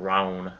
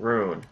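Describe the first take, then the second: First: The vowel sounds like 'oh'. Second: The vowel sounds like 'oo'. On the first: The speaker calls it wrong. "not roan. Why did I say it like that?" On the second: The speaker calls it right. "Rune, not roan"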